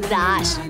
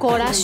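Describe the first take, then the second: First: The g and r join in one cluster. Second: A vowel separates the g and r sounds. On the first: The speaker calls it right. "ওটা গ্রাস" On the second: The speaker calls it wrong. "গরাস নয়"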